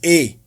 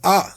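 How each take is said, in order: First: The letter is said the English way. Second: The letter is said the Yoruba way. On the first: "English is A" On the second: "Yoruba is A"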